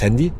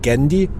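First: The word begins with a breathy H sound. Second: The word begins with a throaty G-like sound. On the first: "also das Handy" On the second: "und ich hole mir das Gendi"

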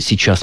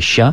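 First: The word is pronounced with all its syllables. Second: One syllable, with the final consonant also dropped. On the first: This is the full literary form. "мы уже не слышим в таком виде" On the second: This is an even more colloquial form. "а то и просто «ща»"

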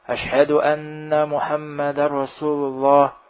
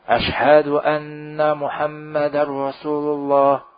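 Both takes have the same delivery.

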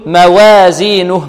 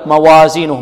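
First: The a after w leans toward an e sound. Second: The w syllable is light with a plain a. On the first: The speaker calls it wrong. "يريد أن يرقق الواو ... لا هذه إمالة" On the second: The speaker calls it right. "هذا صحيح هكذا"

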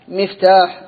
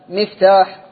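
No difference in how they are said.

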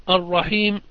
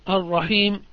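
No difference in how they are said.

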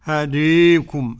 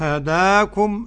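First: The long a leans strongly toward e. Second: The long a sounds fully open. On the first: "أدي الإمالة" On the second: "هداكم الفتح"

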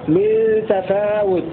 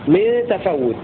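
First: A long a precedes a single, undoubled w. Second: The w is doubled with no long a before it. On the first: "بألف وتخفيف الواو من تفاوت على وزن تعاهد" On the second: "على وزن تعهد"

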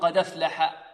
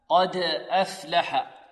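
First: The glottal stop is dropped, its vowel joined to d. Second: The d bounces and the glottal stop is pronounced. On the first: The speaker calls it wrong. "ينقل حركتها إلى ماذا؟ إلى الساكن قبلها" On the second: The speaker calls it right. "قلقلة الدال وتحقيق ماذا؟ الهمزة"

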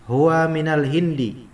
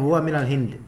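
First: The last word ends with a short i vowel. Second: The last word ends without a final vowel. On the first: The full case ending is read out. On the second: The final case ending is dropped, as in normal speech.

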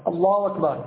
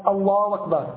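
No difference in how they are said.

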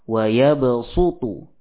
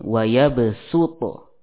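First: The s sound is emphatic and heavy. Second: The s sound is plain and light. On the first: "Thayyibah ya dibaca dengan shad" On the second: "Syatibiyah membaca dengan sin"

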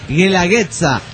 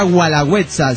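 First: The first syllable sounds like 'geh', as in guerra. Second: The first syllable sounds like 'gwa'. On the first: The speaker calls it right. "sino Guelaguetza. Dice, es, güey. Dice, como guerra" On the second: The speaker calls it wrong. "no se pronuncia Gualagüetza"

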